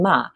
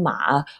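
First: It is said with the fourth tone. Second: It is said with the third tone. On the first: "and then ma" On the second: "And the third one"

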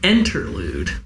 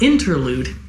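First: The word begins with an 'en' sound. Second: The word begins with an 'in' sound. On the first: The speaker calls it right. "Like enter through a door" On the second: The speaker calls it wrong. "Not interlude"

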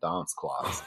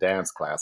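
First: It is said in a British accent. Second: It is said in an American accent. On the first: "I was saying dance class" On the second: "instead of saying dance class"

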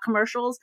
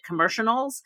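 First: The word is said with its standard sounds. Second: The word is said with altered, nonstandard sounds. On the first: This is the word's usual pronunciation. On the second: A child mispronounces the word.

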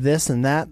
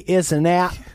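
First: The first word begins with a 'th' sound. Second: The first word has no 'th' sound at all. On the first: "instead of this and that" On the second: "don't pronounce the TH"

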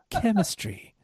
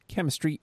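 First: It is read in a sultry voice. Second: It is read in a plain voice.

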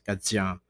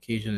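First: The word has a French pronunciation. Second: The word has an English pronunciation.

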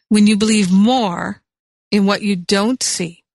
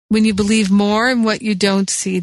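First: It is said slowly. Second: It is said at normal speed.

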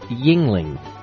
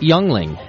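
First: The first syllable sounds like 'ying'. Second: The first syllable sounds like 'young'. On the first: The speaker calls it right. "It's pronounced yingling" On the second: The speaker calls it wrong. "is not pronounced youngling"

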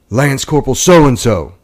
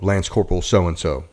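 First: The name is called in a stern, forceful voice. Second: The name is called in a plain, neutral voice. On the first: The name is called again after no answer. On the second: The name is called for the first time.

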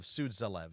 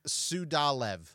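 First: The middle consonant is a dz sound. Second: The middle consonant is a plain d sound. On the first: The speaker calls it wrong. "instead of Sudzalev" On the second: The speaker calls it right. "Sudalev instead of Sudzalev"

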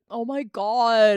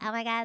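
First: It sounds angry, in a very deep voice. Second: It sounds happy, in a lighter, bright voice.

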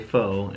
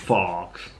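First: The word ends in a plain long o vowel. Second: The word has a short o and ends in ks. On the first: The speaker calls it right. "I often don't say faux" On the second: The speaker calls it wrong. "and I say fox"

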